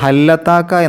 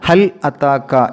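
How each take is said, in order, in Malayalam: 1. വാക്കുകൾ ഗ്ലോട്ടൽ ക്യാച്ച് ഇല്ലാതെ ചേർന്നിരിക്കുന്നു. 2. ഒരു ഗ്ലോട്ടൽ ക്യാച്ച് ഈ രണ്ട് വാക്കുകളെ വേർതിരിക്കുന്നു. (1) "ഹല്ലത്താക്ക എന്നല്ല" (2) "ഹൽ അത്താക്ക എന്നാണ്"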